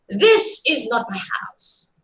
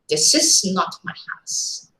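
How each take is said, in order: First: The stress falls on the word this. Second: The stress falls on the word not. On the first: The speaker's house is a different one somewhere else. "if you are stressing the first word here" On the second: Ownership of the house is flatly denied. "You are categorically stating, denying ownership"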